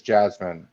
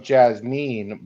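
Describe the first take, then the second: First: Said in the usual way. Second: "Jasmine" said as jazz-MEEN, with a long ee; as spelled. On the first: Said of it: "but it is". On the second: Shown as a demonstration. Correcting a friend on the stripper's name, "Jasmine" as jazz-MEEN. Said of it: "It is, it is spelt like".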